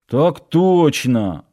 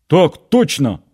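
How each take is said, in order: First: Slow, displeased mutter; sulky, reluctant reply; grumbling. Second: Full-throated military bark; shouting. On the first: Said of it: "недовольно пробурчал Нанос". (недовольно бурча) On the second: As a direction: yell it at the top of his lungs. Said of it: "во всё горло гаркнул". (во всё горло) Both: A narrator's reading.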